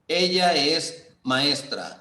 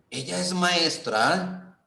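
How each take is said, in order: First: It is said with statement intonation. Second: It is said with question intonation. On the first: The speaker is telling the listener something. "Si yo le digo a usted" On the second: The speaker is asking because they did not know. "usted no sabía qué era y me está preguntando"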